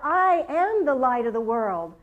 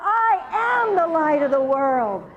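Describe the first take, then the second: First: It is said moderately loud. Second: It is said very loud.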